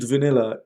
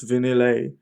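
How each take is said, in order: First: The word ends in an 'ah' sound. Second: The word ends like 'Vanilli'. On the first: The speaker calls it wrong. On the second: The speaker calls it right.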